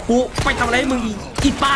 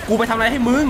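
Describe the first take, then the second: First: Mock outrage with a rising end; exasperated complaint. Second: Said in the usual way. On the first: Real, not acted. (ประชดโวยวายเสียงสูงขึ้นท้าย)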